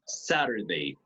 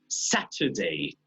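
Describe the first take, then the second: First: The middle t is a quick tap. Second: The middle t is a clear t sound. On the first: "American English, ... como la R del español" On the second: "British English, ... because they always pronounce the T"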